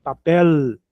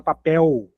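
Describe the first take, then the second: First: Papel with the final L sounded as a real tongue L; clear final L. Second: Papel with the final L melted into a w sound, like papéu; Brazilian soft L. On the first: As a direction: end Papel on a crisp L, not a vowel. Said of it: "termina com L". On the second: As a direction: let the L of papel slide into an u. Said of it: "o brasileiro fala papel". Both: Shown as a demonstration.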